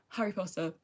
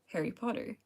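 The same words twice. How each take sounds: First: It is said in a posh British accent. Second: It is said in an American accent. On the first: "It sounds so posh coming from like me, just coming from the British accent" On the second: "When I can switch and go back to"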